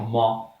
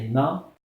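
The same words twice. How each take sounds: First: The syllable is pronounced heavy, with a deep vowel. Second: The syllable is pronounced light, with a thin vowel. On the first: The speaker calls it wrong. "Il ne faut pas les aggraver. Il ne faut pas dire Ma" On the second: The speaker calls it right. "Non. C'est Ma"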